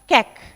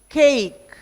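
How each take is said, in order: First: The vowel is short. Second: The vowel is long. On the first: The speaker calls it wrong. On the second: The speaker calls it right.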